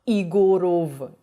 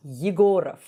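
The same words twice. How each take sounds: First: "Igorov" louder, with no y and a full voiced "ov"; wrong full vowels. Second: "Yegorov" with y onset, stressed "go", short "rf" ending; correct reduced vowels. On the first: Teacher showing what not to say, unreduced vowels. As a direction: give every vowel in "Igorov" its full sound. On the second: Teacher correcting the name, reduced vowels. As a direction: reduce all but the "go" in "Yegorov". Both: Shown as a demonstration.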